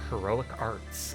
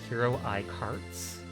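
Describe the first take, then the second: First: The name is split as heroic arts. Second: The name is split as hero eye carts. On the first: "I'm guessing it's Heroic Arts" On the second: "How do I pronounce that?"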